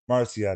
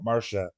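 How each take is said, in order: First: The name ends with a 'see-ah' sound. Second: The name ends with a 'sha' sound. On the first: The speaker calls it right. "It's Sia. Gotta get it right" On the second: The speaker calls it wrong. "not Marsha"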